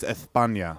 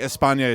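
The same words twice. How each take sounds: First: The s is said with a lisp, like th. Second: The s is said as a plain hiss. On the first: "you lisp everything" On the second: "instead of saying España"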